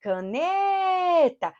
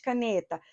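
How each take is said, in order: First: "Caneta" called high and slow with NE held long; calling out. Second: Said in the usual way. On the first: Shown as a demonstration. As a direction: stretch the NE of "Caneta" like a call. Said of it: "A sílaba que se alonga". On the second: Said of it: "Qual é a sílaba tônica de caneta".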